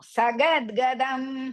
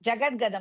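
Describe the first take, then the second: First: The word begins with an s sound. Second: The word begins with a j sound. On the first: The speaker calls it right. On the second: The speaker calls it wrong.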